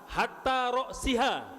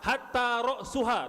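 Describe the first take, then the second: First: The vowel before the final syllable is i. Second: The vowel before the final syllable is u. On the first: "dibaca kasroh"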